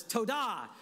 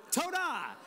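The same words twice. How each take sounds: First: "toda" with the stress on "da". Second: "Toda" with the second syllable "da" high and stressed. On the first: Pastor repeating the word for the congregation, stress on da. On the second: Pastor teaching the Hebrew thank-you, stressing the da. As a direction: lift the final syllable of "Toda". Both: Shown as a demonstration. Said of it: "emphasis on the da".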